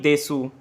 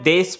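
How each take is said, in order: First: The final u vowel is fully pronounced. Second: The final u vowel is dropped. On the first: The speaker calls it wrong. "ना कि देसू" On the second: The speaker calls it right. "इसको मैं देश पढ़ूंगा"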